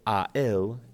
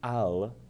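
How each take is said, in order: First: The two words are said separately. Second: The two words blend into one quick syllable.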